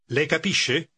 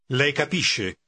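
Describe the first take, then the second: First: It is said as a question, rising. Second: It is said as a statement, falling.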